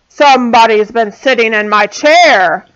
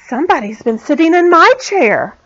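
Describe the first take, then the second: First: It is said in a great big voice. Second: It is said in a middle-sized voice.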